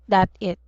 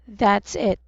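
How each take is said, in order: First: The s sound after 'that' is left out. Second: The s sound after 'that' is clearly pronounced. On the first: The speaker calls it wrong. "not that it" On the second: The speaker calls it right.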